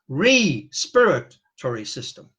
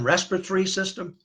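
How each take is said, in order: First: The 're' is set apart from the rest. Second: The word is said the usual way, run together. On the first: "let's repronounce that ... Re-spirit" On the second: "Instead of saying respiratory system"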